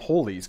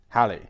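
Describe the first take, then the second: First: The first syllable sounds like 'hall'. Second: The first syllable sounds like 'pal'. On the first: The speaker calls it wrong. "It's not Hawley's Comet" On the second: The speaker calls it right. "the name is meant to rhyme with Valley"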